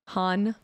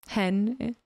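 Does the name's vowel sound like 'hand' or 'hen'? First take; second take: hand; hen. First: The vowel sounds like the one in 'hand'. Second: The vowel sounds like the one in 'hen'. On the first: This is the usual way to say the name. "instead of Han" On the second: This is how one character says the name. "Lando says hen"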